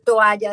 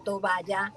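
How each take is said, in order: First: Said in the usual way. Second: Toballa with a b sound, to-BA-lla; regional mispronunciation. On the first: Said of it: "en vez de decir toalla". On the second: Shown as a demonstration. Recalling her Valle del Cauca accent, toballa said with b. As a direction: says toballa, b in place of the vowel gap. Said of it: "decía toballa".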